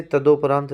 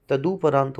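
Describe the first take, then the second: First: तदोपरांत said with o after द, the wrong way; तदोपरांत with an o sound; wrong form. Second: तदुपरांत said with u after द; तदुपरांत with a clear u sound; correct form. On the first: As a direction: show तदोपरांत as the mistake, द-o. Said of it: "नहीं होता". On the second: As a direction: give the right तदुपरांत, द-u. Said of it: "होता है". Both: Shown as a demonstration.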